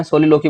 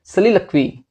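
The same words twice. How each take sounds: First: सोलिलोकी said as so-li-lo-ki, long o sounds, hard k ending; the usual Indian way, सोलिलोकी with o vowels and a k sound; common mispronunciation. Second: सलिलक्वी with a short first vowel and a kwee ending; correct pronunciation. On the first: Teacher shows students the common way, सोलिलोकी with o vowels. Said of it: "but इसकी exact pronunciation is सलिलक्वी". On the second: Teacher gives students the exact pronunciation, सलिलक्वी ending in kwee. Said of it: "इसकी exact pronunciation is". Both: Shown as a demonstration.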